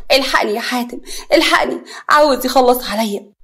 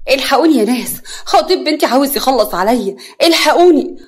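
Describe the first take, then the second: First: Mildly tearful cry for help; tearful plea. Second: Loud raised cry for help, building; screaming for help. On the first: Nagwa begging Hatem to save her, tearful. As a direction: plead through tears, a touch raised. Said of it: "نجوى بدموع". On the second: Nagwa calling people as she is attacked, screaming. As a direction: call out to everyone, rising to a high shout. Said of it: "نجوى بصراخ". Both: A narrator's reading.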